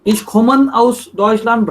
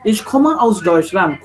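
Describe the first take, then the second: First: Slow "komme" mispronounced as "kommen"; wrong N ending. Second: Slow "komme", ending on an open "uh"; final E. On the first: Teacher showing a wrong German sentence, "komme" said as "kommen". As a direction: add an N to the end of "komme". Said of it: "wrong German sentence". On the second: Teacher showing the right sentence, "komme" ending in E. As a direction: stop "komme" on its vowel, with no N. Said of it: "E has to be there". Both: Shown as a demonstration.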